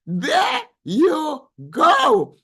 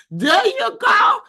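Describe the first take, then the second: First: Slow and high, stretching every word; a stretched-out echo of the cheer; drawn-out sing-song. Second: High, loud cheer; a big loud cheer for a chat comment; cheering shout. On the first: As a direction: savour it, slowly and teasingly. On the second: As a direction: shout it out like a hype woman. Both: Real, not acted.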